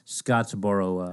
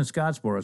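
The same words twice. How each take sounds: First: "Scottsboro" said as "Scottsboro-uh"; extra "uh" ending. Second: Said in the usual way. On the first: Retold or imitated. Telling what he typed in, "Scottsboro" with an added "uh". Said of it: "Because they were calling it". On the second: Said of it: "he said".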